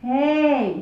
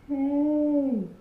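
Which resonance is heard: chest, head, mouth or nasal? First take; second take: mouth; head. First: It resonates forward against the teeth. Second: It resonates high in the head.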